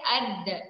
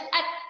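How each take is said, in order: First: The final d ends with a small bounce. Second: The final d stops flat with no echo. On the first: The speaker calls it right. "perlu ada antulan" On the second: The speaker calls it wrong. "jangan kita baca at, nada bunyi. Ha, tu salah"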